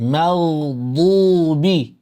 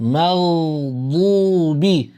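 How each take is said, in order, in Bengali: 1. d সাউন্ডটি ভারী, জোরালো। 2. d সাউন্ডটি ভারী, জোরালো।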